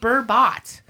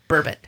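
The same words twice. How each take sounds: First: The second syllable sounds like 'bot'. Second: The second syllable sounds like 'bit'. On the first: The speaker calls it wrong. "it's not burbot" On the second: The speaker calls it right. "Like ribbit"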